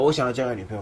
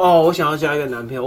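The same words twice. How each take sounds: First: Said in the usual way. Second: High, loud mock declaration; half-hearted claim. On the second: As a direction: announce it without meaning it. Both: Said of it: "表面上说：".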